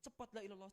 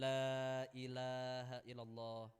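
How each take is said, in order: First: It is said hurriedly and pushily. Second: It is said slowly and gently.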